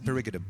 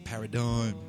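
First: The word is said in a reshaped, playful form. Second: The word is said in its usual form. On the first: This is a new way proposed for everyone to adopt. The speaker calls it right. "Let's say perigidum" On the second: This is how everyone normally says it. The speaker calls it wrong. "They say paradigm. It sounds so dour"

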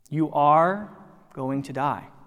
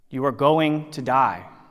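First: It sounds warm and inviting. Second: It sounds flat and resigned.

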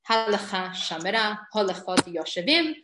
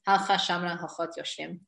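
First: The short sheva vowels are clearly pronounced. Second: The short sheva vowels are dropped. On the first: This is the style for reading scripture aloud. "When I'm reading from the Tanakh" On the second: This is the style for everyday speech. "When I'm speaking"

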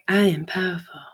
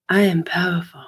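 No difference in how they are said.

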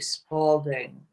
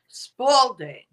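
First: It is said softly, without force. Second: It is said louder and more forcefully.

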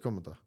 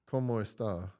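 First: It is said in a merged Dominican accent. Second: It is said in standard, schoolbook Spanish.

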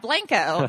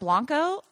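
First: Blanco is said with a local Texan pronunciation. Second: Blanco is said with an outsider's pronunciation. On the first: This is how the local people say the name. "And they're like, yeah, Blanco" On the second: This is how the visitors expected the name to sound. "isn't that Blanco?"

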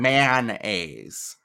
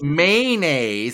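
First: The word is said fully enunciated, with its N. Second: The word is said reduced, not fully enunciated. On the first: This is how the speaker says it. "I'm saying mayonnaise" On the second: This imitates how someone else says it. "you said mayonnaise"

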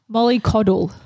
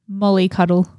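First: The last part sounds like the word coddle. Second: The last part sounds like the word cuddle. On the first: The speaker calls it right. "It's Molly coddle" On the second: The speaker calls it wrong. "No, I've said it wrong"

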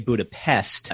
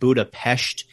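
First: The name is pronounced just as it is spelled. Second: The name is pronounced differently from its spelling. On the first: The speaker calls it wrong. "A lot of people would say Budapest is how it's spelled" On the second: The speaker calls it right. "Budapest is the correct pronunciation"

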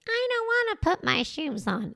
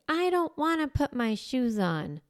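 First: It is said in a mocking voice. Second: It is said plainly, without mocking.

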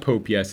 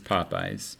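First: It sounds like the words 'pope' and 'yes'. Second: It sounds like the words 'pop' and 'eyes'. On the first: The speaker calls it wrong. "It's not Pope Yes" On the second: The speaker calls it right. "It's Popeyes"

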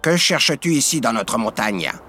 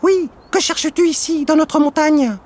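First: It is said in a deep voice. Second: It is said in a high, thin voice.

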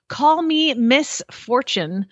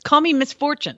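First: The name is said at a normal pace. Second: The name is said fast, running together. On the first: The name refers to a woman called Miss Fortune. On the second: The name sounds like the word misfortune.

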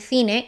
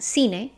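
First: It is said with a Spain Spanish accent. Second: It is said with a Latin American accent. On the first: "in Spain" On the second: "in Latin America"

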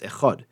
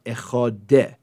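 First: The word ends cleanly on the final consonant. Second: An extra vowel sound follows the final consonant. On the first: The speaker calls it right. "it's just Echad" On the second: The speaker calls it wrong. "you also want to make sure it's not Echadeh"

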